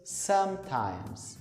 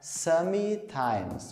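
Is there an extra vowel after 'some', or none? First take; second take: none; extra vowel. First: 'Some' joins 'times' with no extra vowel. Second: An extra vowel is sounded after 'some'. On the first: The speaker calls it right. "Conecta os dois" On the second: The speaker calls it wrong. "para não falar sometimes, colocar esse ezinho do meio"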